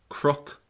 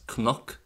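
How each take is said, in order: First: The second consonant is an r-sound. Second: The second consonant is an n-sound. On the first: "in Ulster they're normally pronounced as" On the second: "while you might know these words as"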